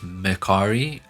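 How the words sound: It is said with American sounds, mer-car-i.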